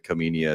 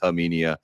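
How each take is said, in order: First: The name begins with a hard K sound. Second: The name begins without any K sound. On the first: The speaker calls it wrong. "want to pr- pronounce it Kaminia" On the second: The speaker calls it right. "the K is silent"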